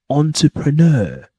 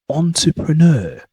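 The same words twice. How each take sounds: The two takes are said the same way.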